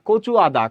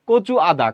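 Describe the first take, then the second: The two takes are said the same way.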